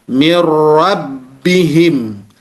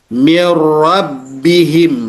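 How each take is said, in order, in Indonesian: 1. Bunyi n langsung menyatu dengan r. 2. Bunyi n langsung menyatu dengan r.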